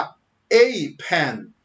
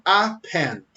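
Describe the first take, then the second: First: "a" drawn out as "ei" with a pause before "pen"; emphatic a. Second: Said in the usual way. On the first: Shown as a demonstration. Teacher showing emphasis on the article "a". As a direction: stretch the "a" and hold before "pen". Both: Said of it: "você quer enfatizar uma palavra".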